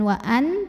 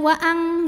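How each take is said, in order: First: The n is pronounced clearly and fully. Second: The n becomes a strong, heavy ng sound. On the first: "Jadi bukan wa'an" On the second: "Jadi bukan wa'ang ya"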